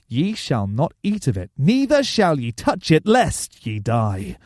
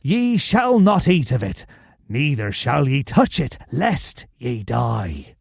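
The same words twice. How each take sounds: First: It is read in his normal voice. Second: It is read in a put-on pirate voice.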